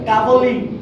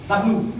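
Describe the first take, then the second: First: The letter name is said fully as two parts. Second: The letter name is clipped into a short form. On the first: The speaker calls it right. "আসলে এর উচ্চারণটা হচ্ছে কি? ডাবল ইউ" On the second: The speaker calls it wrong. "আমরা কি করি? ডাব্লিউ"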